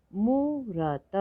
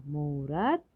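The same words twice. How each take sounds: First: मूरत split as high long मू, र, त; slow separate beats in मूरत; letter by letter. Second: Said in the usual way. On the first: Shown as a demonstration. Teacher sounding out मूरत for learners, letter by letter. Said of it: "थोड़ा अधिक समय लगता है". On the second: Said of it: "तो शब्द पढ़ते हैं".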